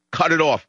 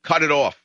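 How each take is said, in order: First: "it" in "Cut it off" hit hard and high, falling; stress on it. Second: "Cut" in "Cut it off" hit first, high and falling; stress on cut. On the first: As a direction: bark it out, leaning on "it". Host angrily demands funding cut. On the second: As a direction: slam the word "Cut", then drop. Host repeats the demand. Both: Real, not acted.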